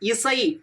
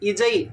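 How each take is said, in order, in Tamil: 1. நடுவில் உள்ள மெய் எழுத்து 's' ஒலி. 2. நடுவில் உள்ள மெய் எழுத்து 'j' ஒலி. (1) "இசை அப்படின்னு சொல்கிறோம் இல்லையா" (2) "இஜை இஜை அப்படின்னு சொல்ல முடியாது"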